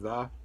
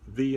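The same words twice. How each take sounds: First: It is said in a casual conversational style. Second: It is said in a stilted announcer style. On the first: It sounds like ordinary conversation. The speaker calls it right. "your normal conversation" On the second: It sounds like an android making an announcement. The speaker calls it wrong. "airline stewardesses very intentionally tried to sound like androids"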